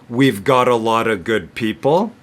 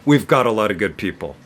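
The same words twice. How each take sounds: First: The sentence is spoken at medium speed. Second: The sentence is spoken very fast. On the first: "If I say it medium speed" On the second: "if I say it really fast"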